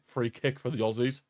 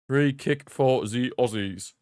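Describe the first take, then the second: First: Said in the usual way. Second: Slow, deliberate mock announcement; playfully drawn out. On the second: Commentator repeats the free kick call for fun, playfully drawn out. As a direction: space out every word playfully.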